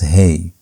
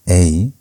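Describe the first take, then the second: First: The vowel starts with an h sound. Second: The vowel is said with no h sound. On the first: The speaker calls it right. "but it's Hey" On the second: The speaker calls it wrong. "it's not A"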